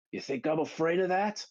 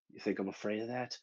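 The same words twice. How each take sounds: First: High, rising acted challenge; raised defiance. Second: Soft, quick acted defiance; quiet defiance. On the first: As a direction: throw the question out boldly, pitched up. Johnny's line, building to battle cry. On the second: Johnny's line, first low take.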